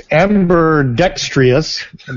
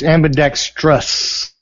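First: The ending has an extra 'ee' vowel: 'dextrious'. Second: The ending has no extra vowel: 'dextrous'. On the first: The speaker calls it wrong. "that's the way Jake says it" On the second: The speaker calls it right. "There's no E before the O-U-S"

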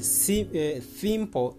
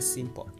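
First: The S sound is lisped. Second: The S sound is clear. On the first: The speaker calls it wrong. "A person who lisps replaces those sounds" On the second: The speaker calls it right. "instead of saying simple"

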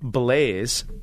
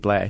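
First: The name is said the anglicized way. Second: The name is said the French way. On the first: This is how the family says the name. "which is its way we pronounce it" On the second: This is the original French-Canadian form of the name. "but it's really Blay"

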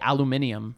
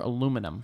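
First: It has five syllables, with an extra i sound. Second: It has four syllables, with no extra i sound. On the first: This is how people in England say it. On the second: This is the speaker's own usual way.

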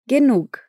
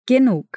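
First: The word ends in a breathy k sound. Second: The same.

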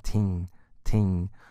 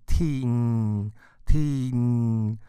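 First: The syllable is said shorter and lighter. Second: The syllable is strengthened and drawn out. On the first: "你再把它缩短一点" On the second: "把它加强的话，你可能会念起来像是听听"

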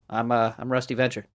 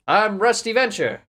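First: It is said in a low, natural voice. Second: It is said in a somewhat lower voice.

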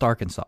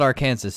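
First: The word ends sounding like saw. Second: The word ends sounding like Kansas. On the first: The speaker calls it right. "it's pronounced Arkansas" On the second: The speaker calls it wrong. "it's definitely not Arkansas"

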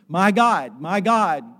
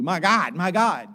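First: It is said as a sincere, anguished cry. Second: It is said as a casual, careless exclamation.

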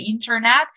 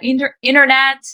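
First: The T in the middle is clearly pronounced. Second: It is said fast with the T dropped. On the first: "We don't need to say internet" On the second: "very fast, you know, without T"

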